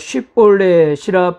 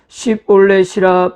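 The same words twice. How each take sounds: First: The word begins with a 'sh' sound. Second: The word begins with an 's' sound. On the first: The speaker is from Gilead. The speaker calls it right. "쉰 발음" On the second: The speaker is from Ephraim. The speaker calls it wrong. "그렇게 바로 말하지 못하고 … 신 발음"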